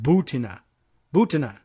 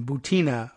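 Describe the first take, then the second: First: Butina stressed up front, BOO-tin-a; stress on first syllable. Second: Butina stressed in the middle, boo-TEE-na; stress on second syllable. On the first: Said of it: "with the emphasis on the first syllable". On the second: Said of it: "rather than". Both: Shown as a demonstration.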